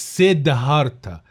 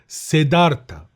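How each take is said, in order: First: The d is followed by an audible h sound. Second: The d is said with no h sound after it. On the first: The speaker calls it wrong. "مش سيدهارتا" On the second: The speaker calls it right. "المفروض اله دي ما بتبانش في النطق"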